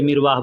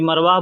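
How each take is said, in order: First: The first syllable has the vowel 'i'. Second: The first syllable has the vowel 'a'. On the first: "कोई मिरवाह बोलता है" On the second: "ज़बर ज़ेर का अगर आदमी ध्यान नहीं देता है तो कोई मरवाह बोलता है"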